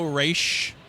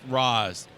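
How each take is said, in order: First: The name ends with an sh sound. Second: The name ends with a plain s sound. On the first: The speaker calls it wrong. "There's no S H in there. There's no Raish" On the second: The speaker calls it right. "R A apostrophe S is pronounced Roz"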